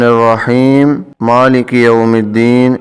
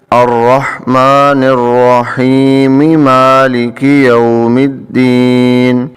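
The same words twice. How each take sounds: First: الرحیم مالک joined with no linking sound; wrong joining. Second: Slow chant, الرحیم linked with mim into مالک; Quranic recitation. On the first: Teacher demonstrates the wrong way, mild chant. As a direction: run the verses together wrongly. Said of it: "اس طرح ہم نہیں پڑھیں گے". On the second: Teacher shows the correct joined reading, chanting. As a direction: recite in one breath, slow. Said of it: "ایک ہی سانس میں پڑھیں تو یہ پڑھیں گے". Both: Shown as a demonstration.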